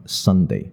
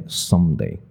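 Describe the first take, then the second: First: "Sunday" with an open-lipped n in the middle; correct n. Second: "Sunday" mispronounced as Sumday; student's m error. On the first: Shown as a demonstration. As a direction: say Sunday with n, lips apart. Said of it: "学生就把它念成M". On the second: Retold or imitated. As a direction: close the lips mid-word in Sunday, making an m. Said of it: "所以中间有闭了嘴".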